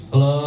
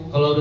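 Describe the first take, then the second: The two takes are said the same way.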